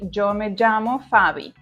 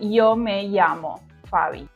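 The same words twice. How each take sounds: First: The ll sounds like an English j. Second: The ll sounds like an English y. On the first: This is how it is said in Colombia. "In Colombia, they pronounce it in a stronger way, producing the sound J" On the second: This is how it is said in Spain or Mexico. "In Spain or in Mexico, they pronounce with a E sound"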